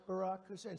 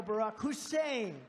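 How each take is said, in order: First: Said in the usual way. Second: "Hussein" drawn out slow and loud, imitating a radio host; imitating Rush's yell. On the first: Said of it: "But he'd go". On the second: Speaker imitating Rush Limbaugh saying the name, loud and slow. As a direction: lean hard and slow on "Hussein". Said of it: "he'd be screaming".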